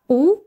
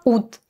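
First: The word ends on a vowel, no final t. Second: The word ends with an audible final t.

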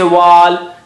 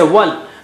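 First: The vowel is drawn out long. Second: The vowel is cut short quickly. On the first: The speaker calls it wrong. "The alif mad is not pronounced here. Don't say wal" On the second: The speaker calls it right. "just say wal. ... You don't have time to say wa. Just go, run, rush"

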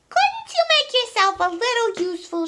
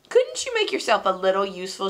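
First: It is said in a put-on character voice. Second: It is said in the reader's normal voice.

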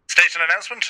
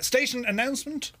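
First: It is said in a put-on announcer voice. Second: It is said in his normal voice.

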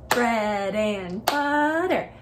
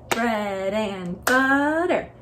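Both takes have the same delivery.

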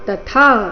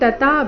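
First: The last syllable is long and aspirated. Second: The last syllable is short and unaspirated. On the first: The speaker calls it right. "ಥಾ ಮಹಾಪ್ರಾಣ ದೀರ್ಘ" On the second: The speaker calls it wrong. "ತಥಾ ಬೇಡ"

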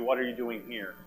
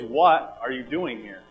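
First: The stress is on "here". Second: The stress is on "what".

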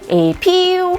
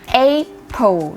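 First: The stress is on the second syllable. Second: The stress is on the first syllable. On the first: The speaker calls it wrong. "ไม่ใช่เน้นพยางค์ที่2 แบบ" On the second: The speaker calls it right. "เน้นที่พยางค์แรกนะคะ"

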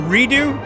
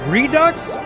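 First: The word ends on a vowel, without ks. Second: The word ends with a clear ks sound. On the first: "What if the X is silent" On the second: "Is it Redux or Redo?"

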